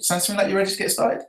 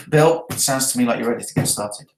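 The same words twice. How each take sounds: First: Quicker, softer, pitch climbing up to "started"; high rising finish on "ready to get started"; question tone. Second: "ready to get started" lowered, no question in it; statement tone. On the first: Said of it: "that's a question". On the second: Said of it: "That's the statement". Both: Shown as a demonstration.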